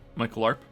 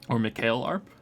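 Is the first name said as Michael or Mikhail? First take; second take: Michael; Mikhail. First: The first name sounds like English Michael. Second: The first name sounds like Mikhail. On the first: "from English speakers I prefer Michael" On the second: "Technically the later pronunciation"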